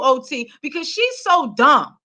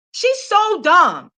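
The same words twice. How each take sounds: First: Said in the usual way. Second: Slow emphatic repeat. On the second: Real, not acted. Vlogger repeating her verdict on [name] slowly. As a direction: draw it out slow, word by word.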